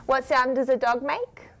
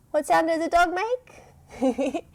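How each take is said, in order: First: Said in the usual way. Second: Put-on higher, sing-song question to kids; playful question. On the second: Shown as a demonstration. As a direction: tease the answer out of them.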